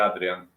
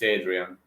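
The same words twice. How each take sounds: First: The name is said the Polish way. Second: The name is said the English way.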